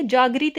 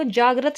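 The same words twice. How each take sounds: First: जागृत said "jaagrit"; wrong "gri" syllable. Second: जागृत said "jaagrat"; correct "grat" syllable. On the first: Teacher warning of the mistake, "jaagrit" for जागृत. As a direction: put an i vowel in जागृत: jaa-grit. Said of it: "ग्री नहीं आएगा". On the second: Teacher giving the correct word, "jaagrat" for जागृत. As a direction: end जागृत on "grat", with a short a. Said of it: "शब्द होता है". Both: Shown as a demonstration.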